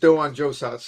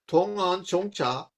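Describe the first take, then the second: First: The name is pronounced with Japanese sounds. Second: The name is pronounced with Chinese sounds. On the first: "or in uh, Japanese" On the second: "How's my pronunciation?"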